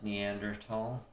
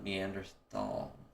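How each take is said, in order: First: The last syllable sounds like 'tall' with t. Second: The last syllable begins with a th sound. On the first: The speaker calls it right. "It's Neanderthal, ... Tall?" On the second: The speaker calls it wrong. "not Neanderthal"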